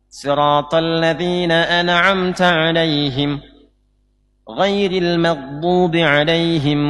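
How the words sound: There is a pause after the first alaihim. The speaker calls it wrong. "dengan berhenti di alaihim pertama"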